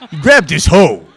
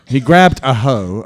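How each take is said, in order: First: Louder and higher, laughing through the joke word hoe; laughing pun take. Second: Said in the usual way. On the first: Acted. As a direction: sell the double meaning with a laugh. Corrected right after with uh, no. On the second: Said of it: "Uh, no".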